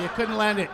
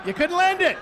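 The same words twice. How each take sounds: First: Said in the usual way. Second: High, loud exclamation of disappointment; loud teasing lament. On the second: Acted. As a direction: cry out at the near miss. Same tease repeated, escalating.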